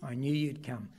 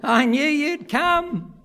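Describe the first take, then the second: First: Much softer, lower, tender repeat; quiet echo. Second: Put-on slow, higher child's line; voicing his son. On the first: Acted. Preacher applying the boy's words to the church, softly. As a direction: whisper the boy's words as a lesson. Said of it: "that sort of faith as that little boy". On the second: Son hugging his father, slow and higher. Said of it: "he kept saying to himself".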